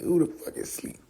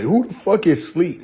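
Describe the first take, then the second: First: Breathy unvoiced whisper; soft whispered mockery; whispered repeat. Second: Said in the usual way. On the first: Real, not acted. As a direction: mutter it under the breath.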